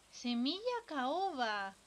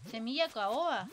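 First: Arrastrado y muy lento; estíralo, saboreando el nombre. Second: Said in the usual way. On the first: Real, not acted. Relee el ítem alargado. (repetido muy despacio)

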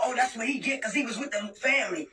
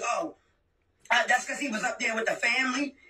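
First: Mocking quote. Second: Sneering low parody of the sister's excuse; mocking sneer. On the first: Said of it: "I'ma sit there and talk about". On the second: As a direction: mimic her lame excuse with a dismissive low "Oh". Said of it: "that's all you can say is".

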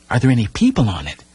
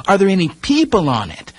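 First: Said in the usual way. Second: High and louder, pressing the question; louder, insistent repeat. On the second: A narrator's reading. The boy repeats his question to Timothy, insistent. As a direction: ask again, more urgently. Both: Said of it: "I repeated".

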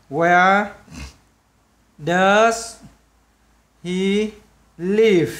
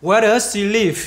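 First: "Where... does... he... live" with long gaps; each word of "Where does he live" standing alone. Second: "Where does he live" run together without gaps; slow, louder model of "Where does he live" as one linked chain; linked words. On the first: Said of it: "đọc nối vào nhau luôn". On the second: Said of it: "sẽ đọc nối vào nhau luôn". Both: Shown as a demonstration.

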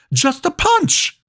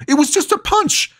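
First: Much higher, slowed, despairing repeat; slower pleading scream. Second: Much higher, desperate protest; panicked scream. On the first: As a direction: drag it out, begging. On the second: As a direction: scream it in disbelief. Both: Acted. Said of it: "Lucas screamed".

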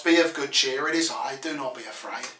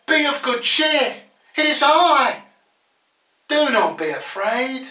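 First: Low, quick, understated comfort; quiet reassurance. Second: Raised, high-pitched call across to frightened followers; calling out reassurance. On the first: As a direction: reassure them in a lowered voice. Same words applied gently to listeners. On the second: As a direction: call it out high, then ease off. Jesus calling out to disciples. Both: Acted.

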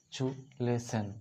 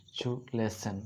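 First: চু lesson said slowly, syllable by syllable; slow syllable demo. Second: Said in the usual way. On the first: Shown as a demonstration. Teacher slowly spelling out চু lesson for the class. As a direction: stretch out চু and lesson so kids hear each part. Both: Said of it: "চু plus লে".

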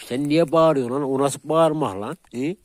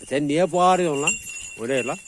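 First: Louder, higher telling-off of the dog; scolding shout. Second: Loud, higher, sharp telling-off; scolding shout. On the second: Scolding the barking dog. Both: Real, not acted.

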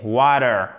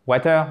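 First: Water falling, stress on wa; the correct way to say water; right pronunciation. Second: Water with a rising, wrong ending; wrong pronunciation. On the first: (bonne prononciation de water, descendante) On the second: (mauvaise prononciation de water, montante) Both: Shown as a demonstration. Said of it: "et pas water, mais water".

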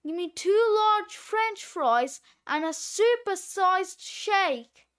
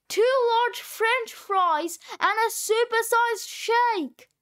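First: Said in the usual way. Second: Higher, emphatic repeat down a bad line; insistent phone order, pitched up; raised voice. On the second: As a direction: call it out to be heard. Repeats order over bad connection.

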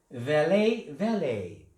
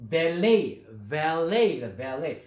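First: Valet said "VA-lay", first syllable stressed; stress on the front. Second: Valet said "va-LAY", the last syllable stressed; stress on the end. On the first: Teacher showing the British stress on valet. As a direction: hit VA and let lay fall away. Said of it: "영국식은 앞에 강세에서". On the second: Teacher showing the American stress on valet. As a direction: lean hard on LAY in valet. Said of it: "뒤에 강세가 있어요". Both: Shown as a demonstration.

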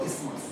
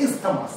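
First: ইসমাস as "IS-mas", no th; proper pronunciation. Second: ইসথামাস as "is-tha-mas", th sounded; spelling pronunciation. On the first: Teacher sums up how class should say it, proper pronunciation. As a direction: say ইসমাস in two syllables, silent th. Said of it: "proper pronunciation যদি করতে হয়". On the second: Teacher recalls what the spelling suggests, spelling pronunciation. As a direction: read ইসথামাস by its letters, three syllables. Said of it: "বানানটা দেখে মনে হচ্ছে". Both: Shown as a demonstration.

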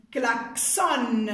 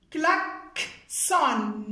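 First: Said in the usual way. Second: KLAXON slowly broken as klak, pause, son; split in syllables. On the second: Shown as a demonstration. Teacher sounding out a new word for pupils, split in syllables. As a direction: say klaxon in two separated beats.

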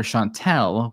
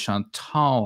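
First: Chantel with the ending like "tell"; common mispronunciation. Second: Chantal with the ending like "tall"; believed pronunciation. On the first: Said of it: "'cause people call her Chantel". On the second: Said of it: "her name is Chantal, I believe". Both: Shown as a demonstration.

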